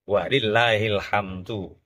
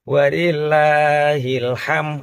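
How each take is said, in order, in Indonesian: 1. Kata terakhir berakhir dengan bunyi 'd' yang jelas. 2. Kata terakhir berakhir tanpa bunyi 'd' sama sekali. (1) "susunan yang benar" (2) "ham tok dale ilang"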